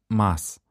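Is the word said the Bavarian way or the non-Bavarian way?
non-Bavarian. The word is said the non-Bavarian, outsider way. The speaker is not from the region. The speaker calls it wrong. "wenn man auf dem Oktoberfest sagt Maß statt Maß"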